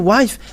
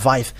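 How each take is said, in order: First: The word begins with a W sound. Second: The word begins with a V sound. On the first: "they're uh, taking it as something else" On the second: "They really pronounce it as V"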